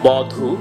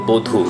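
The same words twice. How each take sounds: First: The first vowel is open, like aw. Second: The first vowel is closed, like o. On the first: This is how it is spelled. "আমরা লিখে থাকি" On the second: This is how it is actually spoken. "উচ্চারণ করতে হবে"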